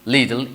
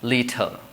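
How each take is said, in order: First: It is said with an American accent. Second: It is said with a British accent. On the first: "in American English it says little" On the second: "British English it uh, sounds as like little"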